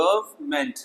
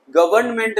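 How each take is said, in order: First: गवर्नमेंट said softly as "guv-ment"; no middle n in गवर्नमेंट; softer गवर्नमेंट, two syllables; silent n. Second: गवर्नमेंट as "guv-urn-ment"; गवर्नमेंट with every syllable voiced; wrong, middle n sounded. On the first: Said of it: "ये silent हो जाएगा". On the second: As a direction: pronounce the n before ment in गवर्नमेंट. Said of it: "गवर्नमेंट नहीं". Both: Shown as a demonstration.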